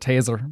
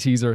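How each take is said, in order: First: The vowel sounds like 'ay', in an Irish accent. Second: The vowel sounds like 'ee', in a neutral accent. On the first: "words that will come out like you know like taser" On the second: "instead of teaser"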